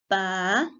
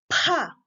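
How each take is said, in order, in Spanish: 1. La p es simple, sin soplo de aire. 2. La p se libera con un fuerte soplo de aire. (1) "las oclusivas simples" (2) "expulsar una fuerza de aire"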